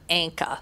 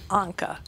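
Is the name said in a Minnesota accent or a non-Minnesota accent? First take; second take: Minnesota; non-Minnesota. First: The name is said in a Minnesota accent. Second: The name is said without a Minnesota accent. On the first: The speaker calls it wrong. "like we say in Minnesota" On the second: The speaker calls it right. "I think it is Anka"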